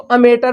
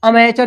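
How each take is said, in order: First: "अमेटर" with a hard T in place of CH; mispronounced AMATEUR. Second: "अमेचर" with a CH sound in place of T; corrected pronunciation. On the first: Teacher showing students how some misread it, mispronounced with a hard T. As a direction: say "अमेटर", with a plain T sound before the ending. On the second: Teacher correcting a common misreading for students, pronounced with CH. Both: Shown as a demonstration. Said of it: "कुछ लोग इसको अमेटर पढ़ेंगे".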